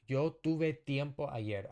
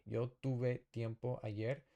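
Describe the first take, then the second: First: Yo tuve tiempo ayer said louder, with tuve punched; louder model sentence with stress on tuve; clear model reading. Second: Said in the usual way. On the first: Shown as a demonstration. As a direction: read it out loud and clear for the class, hitting tuve. Teacher models a sentence first.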